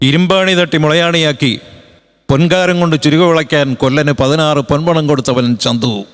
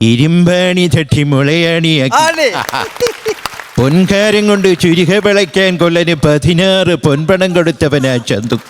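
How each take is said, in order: First: It is spoken in the speaker's own plain voice. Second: It is spoken in a put-on voice with crisp articulation. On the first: "അദ്ദേഹത്തിൻ്റെ ശബ്ദം അനുകരിച്ച് ഞാൻ പറയുന്നില്ല" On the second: "Raghavan ചേട്ടൻ്റെ ശബ്ദം. ഒരു വ്യത്യസ്തമായ അക്ഷര സ്ഫുടതയോടെ"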